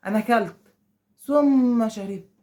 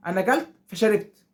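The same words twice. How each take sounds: First: "ثم" stretched long, then "شربت" eased out; unhurried demo of a delay between acts; slow and drawn out. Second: "أكلت فشربت" run together without a break; snappy back-to-back example; quick, no pause. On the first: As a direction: drag the word "ثم" to show a slow gap. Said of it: "ثم دي واحد باله طويل". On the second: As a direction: say "فشربت" right after "أكلت" to show speed. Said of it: "حاجة بتحصل بسرعة". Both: Shown as a demonstration.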